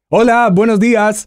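It sounds intense, cheerful and jovial.

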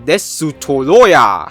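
It is said with a Japanese accent.

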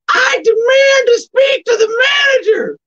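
It is said in a put-on female Karen voice.

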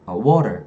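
The r is rolled and the t is soft. "미국에서 water, water 이러잖아"

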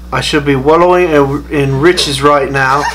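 It is spoken in a put-on British accent.

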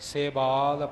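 The word is said as one unbroken unit. The speaker calls it right. "ਪਾਠ ਇਕੱਠਾ ਹੈ"

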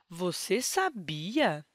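It is said with a questioning tune. The speaker asks whether the listener knew. "ao usarmos o ponto de interrogação"

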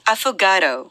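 It is said with English pronunciation. "영어 발음은?"

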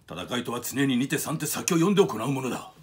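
The voice is firm, commanding and forceful. "有無を言わせない言葉に、迫力があるんですよね"

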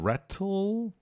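It is said with a British pronunciation. "No inglês britânico"

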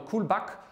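The name is pronounced with German sounds. "that's the German pronunciation"

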